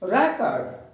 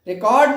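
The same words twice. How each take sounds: First: The stress is on the first syllable. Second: The stress is on the second syllable. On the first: The speaker calls it right. "रेक" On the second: The speaker calls it wrong. "Record नहीं"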